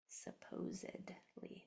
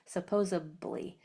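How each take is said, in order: First: A D sound comes before the ending. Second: A B sound comes before the ending. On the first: The speaker calls it right. "It's actually supposedly" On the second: The speaker calls it wrong. "a lot of people pronounce that word as supposab, supposably... That's incorrect"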